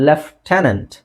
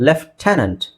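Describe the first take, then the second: The two takes are said the same way.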